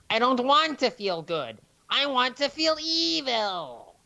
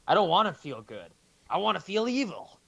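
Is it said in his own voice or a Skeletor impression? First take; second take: Skeletor impression; own voice. First: It is said in a Skeletor impression. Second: It is said in his normal voice.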